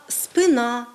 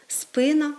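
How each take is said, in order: First: «спина» stressed on the final syllable, drawn out; хибний наголос. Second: «спина» stressed on the first syllable; нормативний наголос. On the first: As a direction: say «спина» the Russian way, spyNA. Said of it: "ми часто з вами чуємо". («спина» з наголосом на останньому складі) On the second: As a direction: say «спина» as SPYna. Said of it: "за нормами української мови маємо говорити". («спина» з наголосом на першому складі) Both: Shown as a demonstration.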